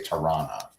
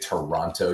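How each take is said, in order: First: The name is said quickly, with the middle syllables clipped. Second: The name is said carefully, every syllable fully pronounced. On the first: This is how people from the city say it. "you say Tirana" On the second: This is how people not from the city say it. "if you're from Toronto, you don't say Toronto"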